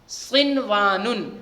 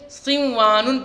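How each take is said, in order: First: The n sound is pronounced clearly and separately. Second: The n sound merges into the following sound. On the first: The speaker calls it right. "इसी को इजहार मुतलक कहा जाता है।" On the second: The speaker calls it wrong. "कायदे के हिसाब से सिंवानुन पढ़ना था"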